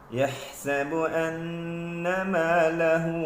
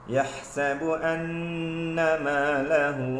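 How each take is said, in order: The two takes are said the same way.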